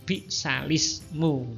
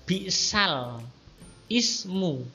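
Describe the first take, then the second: First: The l links straight into ismu, no glottal stop. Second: A glottal stop separates the l from ismu. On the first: "hamzahnya kemudian dibuang" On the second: "Awalnya begitu, lamnya yang sukun, i-nya hamzahnya yang berharokat kasroh itu hidup"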